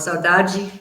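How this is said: It is said with a Brazilian Portuguese accent.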